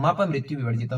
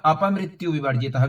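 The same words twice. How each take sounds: First: "मप मृत्यु विवर्जितः" starting on m; m-initial variant. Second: "अपमृत्यु विवर्जितः" starting on an open a; vowel-initial variant. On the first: Teacher offers second option, "मप मृत्यु विवर्जितः" starting on ma. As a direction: begin "मप मृत्यु विवर्जितः" with ma, linked from the word before. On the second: Teacher offers first option, "अपमृत्यु विवर्जितः" starting on a. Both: Shown as a demonstration. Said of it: "भी बोल सकते हैं".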